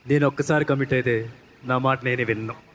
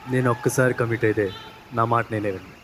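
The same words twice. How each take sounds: First: It is said forcefully and with energy. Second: It is said softly and slowly.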